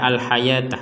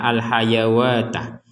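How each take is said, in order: First: There is no w sound after the y. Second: A w sound is pronounced after the y. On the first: The speaker calls it right. "kita membaca al-hayatah" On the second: The speaker calls it wrong. "bukan membaca al-hayawatah"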